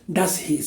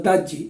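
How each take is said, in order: First: The s and h sounds are clearly pronounced. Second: The s and h sounds are dropped. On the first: The speaker calls it wrong. "no se dice das his" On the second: The speaker calls it right. "se pronuncia daji o algo parecido"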